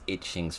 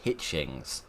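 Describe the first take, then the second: First: The name begins with a vowel, no H. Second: The name begins with an H sound. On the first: The speaker calls it wrong. "She's not Missus Itchings, for crying out loud" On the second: The speaker calls it right. "She's Missus Hitchings"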